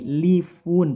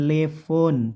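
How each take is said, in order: First: The vowels sound like i and u. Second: The vowels sound like e and o. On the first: The speaker calls it right. "tapi lifun pakai i dan u" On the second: The speaker calls it wrong. "bukan lefon"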